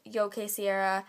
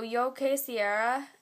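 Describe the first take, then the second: First: "Yo quisiera" said quick and natural; relaxed "Yo quisiera"; Spanish again. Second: "Yo quisiera" slow, careful Spanish; Spanish demo. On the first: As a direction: toss off "Yo quisiera" casually. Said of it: "it's the same, like, thing". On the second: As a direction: say "Yo quisiera" like a teacher. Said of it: "mean the same thing". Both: Shown as a demonstration.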